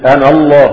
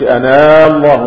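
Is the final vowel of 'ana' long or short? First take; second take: short; long. First: The final vowel of 'ana' is short. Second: The final vowel of 'ana' is long. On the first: The speaker calls it right. "ونحن نقرأ القرآن إنني أنا الله" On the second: The speaker calls it wrong. "ما بنقولش أنا الله ... ما بنمدش مد طبيعي"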